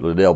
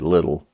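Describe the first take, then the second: First: The stress falls on the second syllable. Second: The stress falls on the first syllable. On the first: This is the speaker's own habitual pronunciation. The speaker calls it wrong. "I would tend to pronounce it Liddell" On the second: This is how the family itself says it. The speaker calls it right. "but I think they pronounce it Little"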